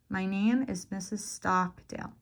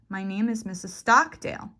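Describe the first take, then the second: First: The O vowel in Stockdale is drawn out longer. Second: The stressed syllable is said noticeably louder. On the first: "Or the length of the vowel. So in my name, it's the O. I'll make it longer" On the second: "you can increase the volume"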